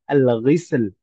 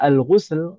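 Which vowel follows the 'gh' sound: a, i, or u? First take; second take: i; u. First: The vowel after 'gh' is i. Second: The vowel after 'gh' is u. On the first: It refers only to the means used for bathing. "ghainnya pakai kasroh" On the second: It refers to the act and the water used. "ghainnya pakai dhammah"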